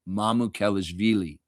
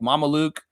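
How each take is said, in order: First: The surname is said with all its syllables. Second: The surname is cut short to two syllables. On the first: The speaker calls it right. "I will never ever say your name incorrectly ever again" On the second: The speaker calls it wrong. "when I mispronounced your name and said it like Mama Luke"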